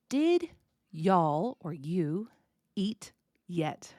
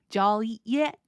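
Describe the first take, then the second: First: "Did y'all or you eat yet" word by word, slowly; careful full form. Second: "Jolly yet" slurred into one quick phrase, rising on "yet"; run-together Southern form. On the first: Teacher decoding the slurred question, "Did y'all or you eat yet" slow and separated. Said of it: "I basically just said the sound E". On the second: Teacher putting the decoded words back together, "Jolly yet" run together and rising. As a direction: squash did y'all eat yet into "Jolly yet". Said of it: "There we go". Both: Shown as a demonstration.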